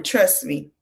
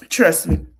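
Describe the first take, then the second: First: Said in the usual way. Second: A knowing whisper; whispered aside. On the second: Real, not acted. Commentator warning future boy moms, whispered. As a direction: drop to a whisper and confide it.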